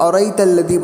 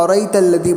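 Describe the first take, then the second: First: One glottal stop in the word is dropped. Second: The same.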